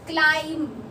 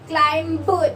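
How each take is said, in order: First: No b sound is heard at the end. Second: A b sound is heard at the end. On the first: The speaker calls it right. "तो बी silent होता है" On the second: The speaker calls it wrong. "क्लाइंब नहीं बोलते हैं"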